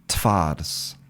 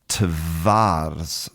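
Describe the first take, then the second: First: The sound after t is a voiceless f. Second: The sound after t is a voiced v. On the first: "So the v becomes f" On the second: "the correct pronunciation should be"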